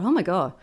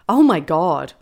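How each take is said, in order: First: It is said with a joyful tone. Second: It is said with an elated tone.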